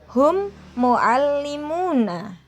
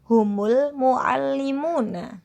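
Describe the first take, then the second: First: The two words are said separately. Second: The words are joined with a linking vowel.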